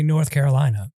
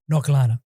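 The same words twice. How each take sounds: First: Every syllable is said clearly and fully. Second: The syllables are rushed and run together. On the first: This is the usual way to say it. "He does not say North Carolina" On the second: This is how the host says it. "it just runs through that"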